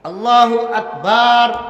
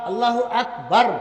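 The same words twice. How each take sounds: First: The last syllable's vowel is drawn out long. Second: The last syllable's vowel is short. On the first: The speaker calls it wrong. "বা লম্বা করে দিছে" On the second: The speaker calls it right. "এখানে লম্বা নয়"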